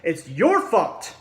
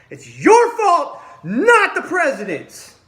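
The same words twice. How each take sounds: First: Said in the usual way. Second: Slow, much higher and louder, with a bitter laugh; furious yelling. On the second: Real, not acted. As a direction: scream the blame at them. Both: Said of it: "I'm really pissed off about it".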